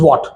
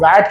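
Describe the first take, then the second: First: The vowel sounds like 'ah', as in 'what'. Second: The vowel sounds like the 'a' in 'cat'. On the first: The speaker calls it right. "So it is वॉट" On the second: The speaker calls it wrong. "गलत pronounce करने लगे हैं, वॉट को वैट कहते हैं"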